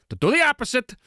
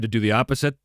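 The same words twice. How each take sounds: First: Much higher, emphatic echo; high-pitched repeat. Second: Said in the usual way. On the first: Real, not acted. Repeats own words for effect.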